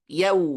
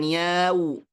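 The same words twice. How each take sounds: First: The vowel is kept short and even. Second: The vowel is stretched out too long. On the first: The speaker calls it right. "Hanya saja cukup yau" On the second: The speaker calls it wrong. "bukan yau"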